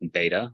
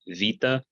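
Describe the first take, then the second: First: It is said in a non-Byzantine way. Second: It is said in the Byzantine way.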